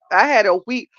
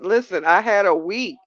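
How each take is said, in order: First: "had" louder, rising; stress on had. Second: Said in the usual way. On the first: Shown as a demonstration. Telling her viewers about her rough week, stressing "had". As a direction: lean on "had" and lift the end.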